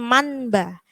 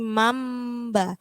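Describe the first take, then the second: First: An n sound comes before the b. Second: An m sound comes before the b. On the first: The speaker calls it wrong. "bukan manba" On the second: The speaker calls it right. "tapi mamba"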